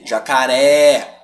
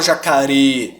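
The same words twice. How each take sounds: First: Slow "jacaré" ending on a long open é; drawn-out wide é in "jacaré"; correct open E. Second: "jacaré" mispronounced with a closed ê at the end; "jacaré" ending wrongly like "você". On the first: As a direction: open and hold the final é of "jacaré". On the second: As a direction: narrow the final vowel of "jacaré" to ê. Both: Shown as a demonstration. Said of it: "Eu não falo jacaré".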